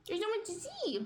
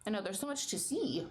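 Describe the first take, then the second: First: Much higher, cooing sing-song. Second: Said in the usual way. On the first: Real, not acted. Telling her curious dog there's so much to see, cooing. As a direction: echo it like talking to a puppy.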